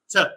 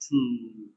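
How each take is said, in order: First: The vowel is short and reduced. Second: The vowel is full and unreduced. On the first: "Weak form" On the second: "Strong form"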